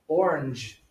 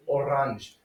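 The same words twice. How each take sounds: First: "orange" as OR-unzh, weak second syllable; English pronunciation. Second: "orange" said o-RAHNZH with open "ah"; French pronunciation. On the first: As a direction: say "orange" the everyday English way, OR-inj. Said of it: "we also say in English". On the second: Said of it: "that was also pronounced". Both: Shown as a demonstration.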